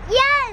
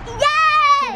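First: It is said with little excitement. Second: It is said with much more excitement.

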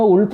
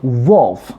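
First: It starts with a plain Korean-style oo vowel. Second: It starts with a tensed, rounded-lip W glide. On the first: The speaker calls it wrong. "울프 아니고 이 소리를 꼭 아셔야 돼요" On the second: The speaker calls it right. "그래서 Wolf. 이렇게"

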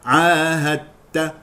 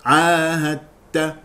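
Both takes have the same delivery.

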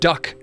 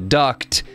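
First: The final T sound is dropped. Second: The final T sound is pronounced. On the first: It sounds like the bird. The speaker calls it wrong. "As in, quack, quack, I'm a duck" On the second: It names a pipe or channel. The speaker calls it right. "Like tape you would put on a duct"

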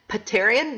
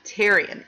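First: The word begins with a spoken P sound. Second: The word begins with a T sound. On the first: The speaker calls it wrong. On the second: The speaker calls it right. "even though it starts with a P"

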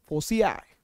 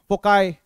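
First: The middle consonant is an s sound. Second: The middle consonant is a k sound. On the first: "कई कई फोसियाई बोलते हैं इसको" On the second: "ऐसा बोल देते हैं इसको"

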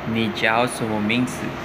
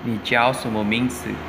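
No difference in how they are said.

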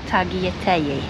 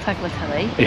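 First: The L sounds are left out. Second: The L sounds are pronounced clearly. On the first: The speaker calls it right. "Apparently you don't pronounce the L's" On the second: The speaker calls it wrong. "Jill got told off saying tagliatelle"

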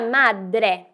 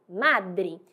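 First: The word ends with a clear E sound. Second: The word ends with an I sound. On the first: The speaker calls it right. "o E deve ser pronunciado" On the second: The speaker calls it wrong. "E não madre"

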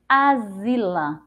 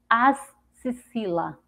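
First: The middle consonant is a z sound. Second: The middle consonant is an s sound. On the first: "se a gente for pronunciar com o som de Z" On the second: "com X com o som de si"

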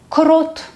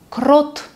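The two takes are said the same way.

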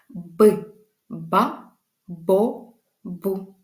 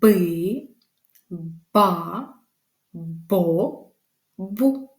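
First: The syllables are said at a faster pace. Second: The syllables are said at a slower pace.

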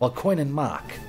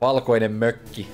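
First: The second word is mangled, sounding like 'mak'. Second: The second word has its native Finnish pronunciation. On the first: The speaker calls it wrong. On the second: The speaker calls it right.

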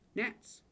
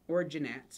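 First: The word starts with an N sound. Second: The word starts with a hard G sound. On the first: The speaker calls it right. "The G is silent" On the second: The speaker calls it wrong. "if you want to just say it like that, but I'm going to make fun of you again"

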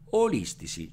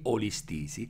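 First: The stress is on the third-to-last syllable. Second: The stress is on the second-to-last syllable. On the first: The speaker calls it right. "la pronuncia corretta sarà olistisi, cioè la parola resta proparossitona" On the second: The speaker calls it wrong. "l'accento dovrebbe cadere sulla penultima"

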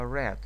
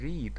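First: The word has a short vowel, like 'red'. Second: The word has a long vowel, like 'reed'. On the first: The action happened in the past. The speaker calls it right. "а read" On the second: The action happens in the present. The speaker calls it wrong. "именно не read"

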